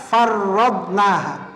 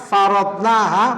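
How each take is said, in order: First: The r sound is held long and doubled. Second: The r sound is short and single. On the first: "musyaddadah, atau dibaca farradnaha" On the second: "mukhaffafah, tidak ada tasdidnya"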